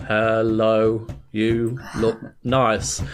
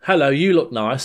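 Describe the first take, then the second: First: Low, drawn-out, word by word; labored slow monotone, pausing between words; dead slow typing. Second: Said in the usual way. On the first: Retold or imitated. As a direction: say it as if typing very slowly. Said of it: "So you type dead slowly". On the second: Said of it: "he's like".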